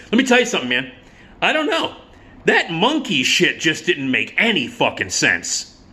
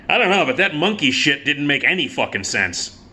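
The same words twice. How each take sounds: First: Put-on high, dopey young guy voice; dude voice. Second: Said in the usual way. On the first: Twenty-something guy at the movie shrugging off the film, dopey high voice. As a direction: mimic a clueless young dude, pitched up. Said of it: "one of the guys said". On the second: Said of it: "this twenty-something guy said".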